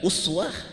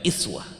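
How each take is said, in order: First: The first vowel is an u sound. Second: The first vowel is an i sound. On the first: "uswah itu dhammah" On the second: "iswah kasrah"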